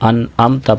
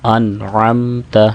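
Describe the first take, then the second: First: The middle sound is a simple glottal stop. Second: The middle sound is a deep throat consonant. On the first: The speaker calls it wrong. "आइन को हमज़ा से बदल देते हैं बाज़ अहबाब, ये गलत तरीका है" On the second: The speaker calls it right. "आइन की आवाज़ को भी सही वाज़े करना है"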